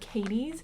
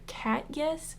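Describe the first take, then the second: First: The name ends in an 'eez' sound. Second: The name ends in a 'yes' sound. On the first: The speaker calls it wrong. "I keep calling this brand Katie's" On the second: The speaker calls it right. "J E S is supposed to be pronounced as yes"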